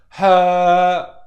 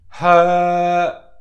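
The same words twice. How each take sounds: The two takes are said the same way.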